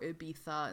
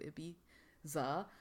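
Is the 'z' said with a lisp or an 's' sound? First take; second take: lisp; s sound. First: The 'z' is said with a lisp, like 'th'. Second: The 'z' is said as a plain 's'.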